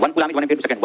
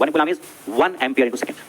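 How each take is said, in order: First: Said in the usual way. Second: Very slow, word by word, "one" leaned on; slow dictation. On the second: Shown as a demonstration. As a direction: spell it out slowly for notes. (बहुत धीरे, लिखवाते हुए)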